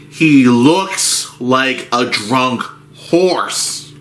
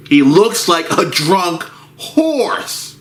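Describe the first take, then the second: First: Slow drawn out. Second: Pitched up and slow; higher drawn-out repeat. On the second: Narrator repeating for effect, higher and slow. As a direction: say it again higher and slower. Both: Shown as a demonstration.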